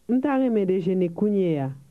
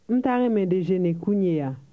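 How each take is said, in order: The two takes are said the same way.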